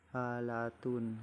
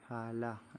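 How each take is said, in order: First: The word ends with a full 'tun' syllable. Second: The word ends with an 'h' sound. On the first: This is the full Arabic form. "seperti halatun" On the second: This is the form at a pause. "dalam keadaan wakaf dibaca ha"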